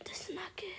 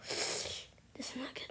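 First: Higher worried whisper. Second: Whisper. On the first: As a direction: whisper it again, pitching up with fear. Repeats it, scared. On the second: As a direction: whisper it, nervous. Scared while playing. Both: Real, not acted.

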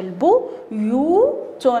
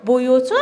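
First: بيوت split into its three syllables, each stretched very slowly; بيوت broken into syllables for the class. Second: Said in the usual way. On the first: Shown as a demonstration. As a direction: sound out بيوت in separate slow beats. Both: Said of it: "نقوم بتقطيعها على هذا الشكل".

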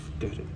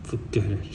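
First: Soft demo whisper. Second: Breathy retold whisper. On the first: Shown as a demonstration. Hanger showing how the designer whispered it, soft whisper. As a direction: breathe it out like that. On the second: Designer whispering to the hanger that she gives up, whispered. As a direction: whisper it, giving up. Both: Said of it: "Like that".

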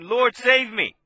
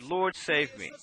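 First: Louder, higher cry for help; louder plea. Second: Soft, low retold cry for help; a hushed plea from a sinking man; quiet plea. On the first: Retold or imitated. Preacher voicing Peter crying to the Lord, louder plea. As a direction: call out to be saved. He cried to him and said. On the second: Preacher voicing sinking Peter, soft low plea. And he cried out and said.

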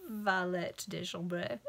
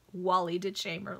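First: "Valet de chambre" said slowly in French; French pronunciation. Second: "Wally de Chamber" with plain English sounds; anglicized mispronunciation. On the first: Reader showing the proper French, French pronunciation. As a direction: give "Valet de chambre" its French vowels, drawn out. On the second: Reader relishing the butchered French, anglicized mispronunciation. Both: Shown as a demonstration.

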